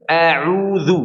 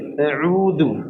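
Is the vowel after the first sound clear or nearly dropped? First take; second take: clear; dropped. First: The vowel after the hamza is fully open. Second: The vowel after the hamza is nearly dropped. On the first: The speaker calls it right. "Harusnya dibaca dibuka dengan semestinya" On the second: The speaker calls it wrong. "seakan-akan hamzanya mati"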